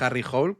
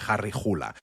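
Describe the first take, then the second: First: The surname is said like the English word 'hole'. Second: The surname is said as two syllables, 'hoo-la'. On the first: The speaker calls it wrong. "No es Harry Hole, porque lo parece porque solemos leer inglés" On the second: The speaker calls it right. "sino se pronuncia eh, Harry Hula"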